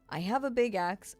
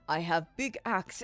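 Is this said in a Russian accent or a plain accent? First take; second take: plain; Russian. First: It is said in the speaker's ordinary accent. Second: It is said in a put-on Russian accent. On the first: The speaker calls it wrong. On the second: The speaker calls it right.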